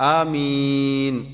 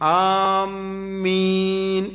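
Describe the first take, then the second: First: The first vowel is short, the second long. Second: The m sound is doubled and held. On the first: O God, answer our prayer. The speaker calls it right. "അലിഫ് നീട്ടം കുറച്ച് മീമിന്റെ മദ് കൂട്ടുക" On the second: Those who intend or aim for something. The speaker calls it wrong. "മീമിന് ശദ്ദ് വരും"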